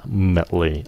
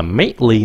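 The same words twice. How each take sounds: First: Mately as a weak, slow "mut-lee"; correct reduced vowel. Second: Mately with a full "MATE-lee" vowel; wrong pronunciation. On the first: Teacher gives the right ending, reduced vowel. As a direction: say mately with a neutral, unstressed vowel. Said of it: "nó là mately". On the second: Teacher warns against this ending, full-vowel mispronunciation. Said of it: "không phải là mately nữa". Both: Shown as a demonstration.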